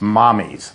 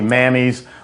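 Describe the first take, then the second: First: The first vowel sounds like the one in mom. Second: The first vowel sounds like the one in cat. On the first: This is the actual Italian name, meaning mother. The speaker calls it right. "It's Italian for mother. It's Mommy's" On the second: This is how the spelling seems to read. The speaker calls it wrong. "it sounds like it should be Mammy's"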